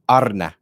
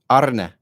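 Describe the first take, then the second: Both takes have the same delivery.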